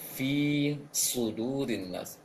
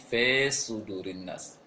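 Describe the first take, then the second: First: The vowel in fi stays a clear i. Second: The vowel in fi is slanted toward a darker sound. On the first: The speaker calls it right. "Seharusnya tetap baca fi" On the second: The speaker calls it wrong. "termiringkan kasrohnya"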